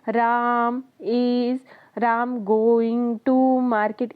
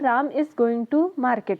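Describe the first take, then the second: First: It is said with long gaps between words. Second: It is said smoothly at a normal speed.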